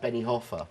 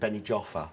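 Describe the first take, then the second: First: The name is said with a Spanish pronunciation. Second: The name is said with a British pronunciation. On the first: "places where I lived like" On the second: "most people, British people, pronounce it"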